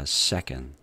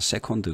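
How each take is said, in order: First: The second syllable is weak with a reduced vowel. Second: Both syllables get full Korean-style vowels. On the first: The speaker calls it right. "그게 아니라 second" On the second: The speaker calls it wrong. "한국식으로다가 second 그러죠"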